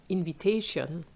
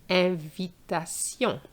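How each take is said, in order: First: Invitation said the English way, in-vi-TAY-shun; plain English invitation for contrast. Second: Invitation slowly in French, ahn-vee-tah-SYON; slow French Invitation with nasal end. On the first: Teacher contrasts with the English word, plain English reading. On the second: Teacher repeats the French model slowly, French pronunciation. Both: Shown as a demonstration. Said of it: "That's why we say invite".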